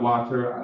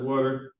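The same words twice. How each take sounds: First: Water is said with a standard American accent. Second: Water is said with a Philadelphia accent. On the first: "not water" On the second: "I'm from Philly. I said water"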